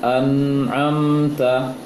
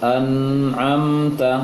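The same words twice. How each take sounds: The two takes are said the same way.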